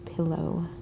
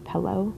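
First: The first vowel sounds like the i in bit. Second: The first vowel sounds like the e in bed. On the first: "not pillow" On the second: "I also add an E to ... the word pillow"

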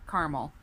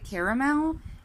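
First: The middle vowel is dropped, giving two syllables. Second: The middle vowel is said, giving three syllables. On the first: "I've seen caramel spelled with just the first A, and when it's spelled that way, I call it caramel" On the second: "The reason I say caramel is because there's the second A in this"

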